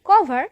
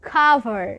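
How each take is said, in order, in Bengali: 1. শব্দটি সাধারণ k ধ্বনি দিয়ে শুরু হয়। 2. শব্দটি শ্বাসযুক্ত k ধ্বনি দিয়ে শুরু হয়। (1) "এটি আসলে কভার নয়" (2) "খাবারের সাথে সম্পৃক্ত একটি উচ্চারণ হবে"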